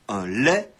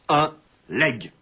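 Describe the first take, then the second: First: The word ends in a vowel, no final consonant. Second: The word ends with a clearly sounded g. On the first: The speaker calls it right. "la prononciation correcte" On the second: The speaker calls it wrong. "la prononciation actuelle et courante"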